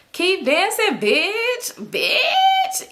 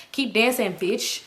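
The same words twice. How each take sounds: First: Bitch rising higher each time, taunting; climbing, high, taunting bitch; high mocking sing-song. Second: Said in the usual way. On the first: Shown as a demonstration. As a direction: stretch "bitch" up high and nasty-sweet. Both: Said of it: "depends on how you say it".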